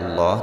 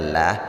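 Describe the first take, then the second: First: The L sound is heavy and dark. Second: The L sound is light and thin. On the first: The speaker calls it right. "dibaca dengan tebal, artinya dibaca Allah" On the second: The speaker calls it wrong. "tidak dibaca lah"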